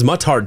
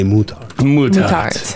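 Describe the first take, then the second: First: The first syllable sounds like 'mutt'. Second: The first syllable sounds like 'moo'. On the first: The speaker calls it right. "Moutarde doesn't sound as fancy" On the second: The speaker calls it wrong. "because of the regality of the place, we want to say Moutarde"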